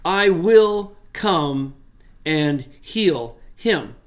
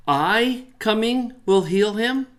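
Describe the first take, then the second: First: Slow declarative reading; firm statement. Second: "I" lifted high, slow rise to the end; slow questioning literal order; question reading. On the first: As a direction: state it plainly as a promise, pushing "will". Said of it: "state this as a statement". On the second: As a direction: ask it with "I" up front, rising. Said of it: "the argument that it is a question". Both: Shown as a demonstration.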